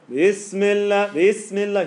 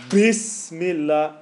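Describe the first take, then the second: First: Bismillah recited slowly with a light b; reciter's Bismillah. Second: Bismillah with a heavy, pushed b; wrong heavy Bismillah. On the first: Teacher imitating Husari reciting Bismillah. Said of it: "He'll go". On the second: Teacher showing the heavy b reciters avoid. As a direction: press the b of Bismillah hard. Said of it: "He won't go". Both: Shown as a demonstration.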